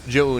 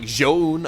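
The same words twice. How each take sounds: First: The name is said with English-style pronunciation. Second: The name is said with Chinese-style pronunciation. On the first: "close enough if we're gonna anglicize it" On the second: "if we're gonna really pronounce it properly"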